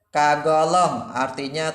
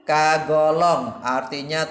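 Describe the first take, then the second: Both takes have the same delivery.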